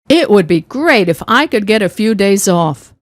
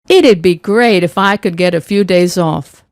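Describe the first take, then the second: First: It would is said as two full words. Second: It would is shortened to one word, it'd.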